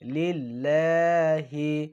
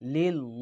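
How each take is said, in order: First: The word ends with a clear 'hi' sound. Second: The word ends without a final 'hi' sound. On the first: The speaker calls it right. "লিল্লাহ হাজের হি" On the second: The speaker calls it wrong. "অনেকে বলে লিল ল"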